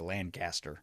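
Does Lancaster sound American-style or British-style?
American-style. It is said the plain California way.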